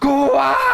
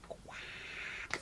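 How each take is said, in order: First: It is said loudly. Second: It is said quietly.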